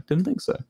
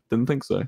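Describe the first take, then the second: First: Higher, rising smug repeat; smug lilt. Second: Said in the usual way. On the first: Shown as a demonstration. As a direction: tease chat with a gloating lift.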